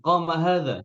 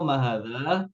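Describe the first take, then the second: First: "Qama hadza" higher, falling on hadza; statement tune. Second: "Qama hadza" rising at the end; wrong question tune. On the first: Teacher models correct statement "Qama hadza". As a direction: declare "Qama hadza" with a clear fall. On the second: Teacher marks rising "Qama hadza" as wrong. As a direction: ask "Qama hadza" upward. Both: Shown as a demonstration.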